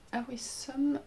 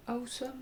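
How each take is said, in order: First: Awesome prononcé à la française, hésitant; un premier essai d'Awesome à l'anglaise, mal assuré; accent anglais maladroit. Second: Awesome repris plus bas et doucement, toujours à la française; deuxième essai d'Awesome à l'anglaise, à mi-voix; accent anglais maladroit. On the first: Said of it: "J'ai un accent anglais déplorable". (Awesome dit avec un accent anglais déplorable) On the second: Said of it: "je sais pas comment on dit". (Awesome redit doucement avec un accent anglais hésitant) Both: Real, not acted.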